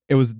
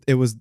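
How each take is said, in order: The two takes are said the same way.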